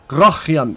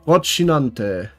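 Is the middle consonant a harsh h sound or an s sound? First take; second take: harsh h; s sound. First: The middle consonant is a harsh throaty h. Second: The middle consonant is an s sound. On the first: The speaker calls it wrong. "with a rolled H" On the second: The speaker calls it right. "You make a sea sound"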